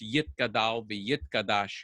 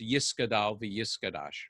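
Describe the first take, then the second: First: It is said in Sephardic Hebrew pronunciation. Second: It is said in Ashkenazi Hebrew pronunciation.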